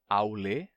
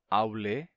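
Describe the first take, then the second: Both takes have the same delivery.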